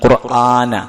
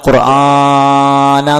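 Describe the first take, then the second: First: The vowel is held for a normal length. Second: The vowel is stretched out extra long. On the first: The speaker calls it right. "നീട്ടാണ്ട്" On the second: The speaker calls it wrong. "ഖുർആന എന്ന് പറയേണ്ട ആവശ്യമില്ല"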